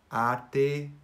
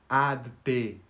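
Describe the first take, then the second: First: The two words are joined as one word. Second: The two words are said separately. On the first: The speaker calls it right. "Mas nós unimos como se fosse uma mesma palavra" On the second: The speaker calls it wrong. "eu não preciso falar ad te"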